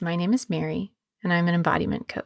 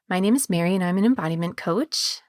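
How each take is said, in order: First: The voice falls at the end. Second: The voice rises at the end. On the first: It sounds grounded and assertive. "landing that final note on a downbeat" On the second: It sounds less threatening. "your voice going up"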